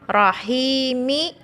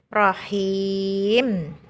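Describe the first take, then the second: First: The word ends with a final vowel sound. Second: The word ends with a final consonant sound. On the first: The reading continues without stopping. "Diiringi huruf hidup, mi" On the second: The reading stops at the end of the verse. "dibaca menjadi rahim"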